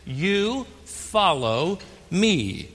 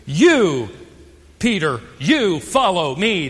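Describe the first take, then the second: First: Slow, even command with a falling close on me; calm command. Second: You punched loud at the start, you hit again before follow me; stress on you. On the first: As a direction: say You follow me slowly, landing softly on me. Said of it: "notice again the repeated command". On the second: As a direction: lean hard on each you. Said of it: "emphasizing the word you". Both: Shown as a demonstration.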